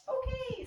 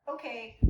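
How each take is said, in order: First: "okay" swung much higher as a release cue; an emphatic high "okay" release; big high okay. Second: Said in the usual way. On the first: Shown as a demonstration. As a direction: throw "okay" way up so the dog knows it's for him. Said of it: "so he knows it's definitely for him". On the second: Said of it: "It's not just, okay".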